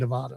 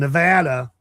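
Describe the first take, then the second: First: It is pronounced the way Southerners say it. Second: It is pronounced the way locals of the state say it. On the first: "for here in the South, we say Nevada" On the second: "I have to say that right"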